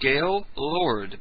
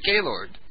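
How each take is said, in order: First: The name is said slowly as two words. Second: The name is said fast as one word.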